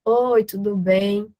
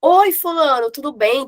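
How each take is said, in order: First: Slow, unenthusiastic "Oi, tudo bem?" with no energy; slow, listless phone hello; slow dull greeting. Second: Higher and louder, upbeat "Oi, fulano, tudo bem?" with a lift on bem; bright, lively phone hello; animated greeting. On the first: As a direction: drag out the greeting like a bored caller. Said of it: "você fala assim". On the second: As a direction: greet the client with real energy. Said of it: "você tem que ligar". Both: Shown as a demonstration.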